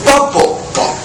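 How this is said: The stress is moved to a different word. It sounds like a foreign language. The speaker calls it wrong.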